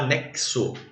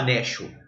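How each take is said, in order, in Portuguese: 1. A letra x é pronunciada como o som ks. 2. A letra x é pronunciada como um único som. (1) "Você fala anexo" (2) "você não fala anexo"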